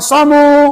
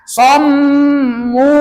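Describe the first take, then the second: First: The M sound is short and not held. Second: The M sound is held long before the vowel. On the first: The speaker calls it wrong. "Jangan somu. Salah" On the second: The speaker calls it right. "Tahan dulu M-nya"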